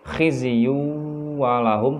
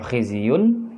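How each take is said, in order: First: The n merges into the following w sound. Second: The final n sound is clearly pronounced. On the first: The speaker calls it right. "tetapi khizyu walahum, suara tanwinnya dileburkan" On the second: The speaker calls it wrong. "tidak lagi dibaca khizyun"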